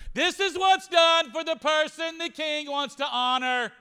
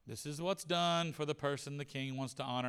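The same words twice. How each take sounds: First: It is said loudly. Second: It is said quietly.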